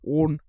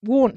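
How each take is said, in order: First: "Warn" low and loud, like "war"; funny accent. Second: "Warn" said loud, like "war" with an n; funny accent. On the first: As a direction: imitate "Warn" the way he says it. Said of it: "a whole different language". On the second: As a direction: imitate "Warn" loudly, the vowel of "war". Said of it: "he says one funny". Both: Retold or imitated.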